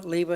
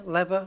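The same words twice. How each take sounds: First: "lever" as LEE-vuh, long ee; long-e variant. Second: "lever" as LEV-uh, short e; short-e variant. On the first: Host listing variants, "lever" with long ee as LEE-vuh. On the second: Host listing variants, "lever" with short e as LEV-uh. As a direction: say "lever" to rhyme with never. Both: Shown as a demonstration.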